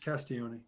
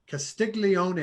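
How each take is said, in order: First: The 'gl' is said like a Y sound. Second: The 'gl' is said with a hard G sound. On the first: The speaker calls it right. "no, it's Castiglione" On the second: The speaker calls it wrong. "is how I pronounced it"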